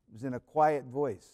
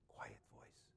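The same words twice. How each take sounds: First: Said in the usual way. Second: Barely audible whisper; quiet voice. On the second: Shown as a demonstration. Preacher shows how God spoke to Elijah, whispered. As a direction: whisper it as the still, small voice.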